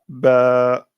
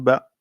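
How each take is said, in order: First: The vowel is long, held two beats. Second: The vowel is short, held one beat. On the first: The speaker calls it right. "on dira ba" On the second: The speaker calls it wrong. "on ne pourra pas dire ba"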